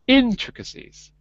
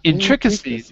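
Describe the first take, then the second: First: The stress is on the first syllable. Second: The stress is on the second syllable. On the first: The speaker calls it right. "a little less on the trick, more on the in" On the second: The speaker calls it wrong. "Not intricacies"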